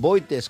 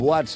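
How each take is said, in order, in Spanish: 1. La palabra se lee letra por letra. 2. La palabra se dice a la manera francesa. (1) "que els dèiem abans" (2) "més tard, ja quan vam aprendre a pronunciar"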